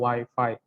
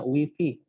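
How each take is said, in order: First: It is pronounced in an English style. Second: It is pronounced in an Indonesian style. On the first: The speaker calls it right. "yang paling benar itu adalah Wi-Fi" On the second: The speaker calls it wrong. "orang tua saya sering banget berkata Wi-Fi"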